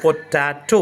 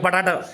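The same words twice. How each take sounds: First: പൊട്ടാറ്റോ drawn out as po-TAA-to, clear round o at both ends; careful English pronunciation. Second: പൊട്ടാറ്റോ said quickly as "pataata", vowels flattened to a; local Malayali pronunciation. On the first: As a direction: model പൊട്ടാറ്റോ in careful English, every syllable distinct. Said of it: "correct English പറയുമ്പോൾ". (പൊട്ടാറ്റോ ശരിയായ ഇംഗ്ലീഷിൽ "പൊ-ട്ടാ-റ്റോ" എന്ന് തെളിച്ച്) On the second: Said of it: "ഇവിടെ എങ്ങനെ സംസാരിക്കുക?". (പൊട്ടാറ്റോ നാടൻ മലയാളി രീതിയിൽ "പട്ടാറ്റ" എന്ന്) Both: Shown as a demonstration.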